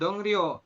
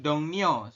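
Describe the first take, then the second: First: The second syllable begins with an r sound. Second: The second syllable begins with an n sound. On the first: The speaker calls it wrong. "dibacanya itu bukan Dongryo" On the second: The speaker calls it right. "tapi Dongnyo seperti itu"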